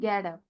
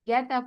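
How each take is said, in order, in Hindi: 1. get में t d की तरफ़ नरम होता है। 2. get में t साफ़ तरह से छोड़ा जाता है। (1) "डी टाइप आवाज होती है टंग को फोल्ड करके" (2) "गेट अप नहीं"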